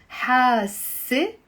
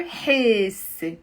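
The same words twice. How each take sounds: First: حاسة ending in an open a; final a. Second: حاسة ending in an e sound; final e. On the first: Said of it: "pronounce it as a a". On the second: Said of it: "pronounce it as a e". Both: Shown as a demonstration.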